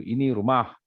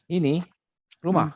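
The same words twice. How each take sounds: First: Said in the usual way. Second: "Ini", stop briefly, then "rumah"; brief pause after INI. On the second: Shown as a demonstration. Teacher shows students where to stop, pause after "Ini". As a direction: split "Ini ... rumah" with a short break. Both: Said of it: "dia kena berhenti sekejap".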